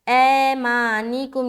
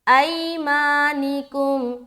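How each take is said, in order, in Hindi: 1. पहला स्वर सादा 'e' ध्वनि है। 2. पहला स्वर 'ai' डिफ़्थॉन्ग ध्वनि है। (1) "ये है मजहूल साउंड" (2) "ए नहीं पढ़ना बल्कि आई"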